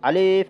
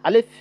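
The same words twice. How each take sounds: First: The word is said slowly with a drawn-out vowel. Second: The word is said quickly with a short vowel. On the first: The speaker calls it wrong. "এভাবে বলবো না" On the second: The speaker calls it right. "এটা তাড়াতাড়ি বলবো"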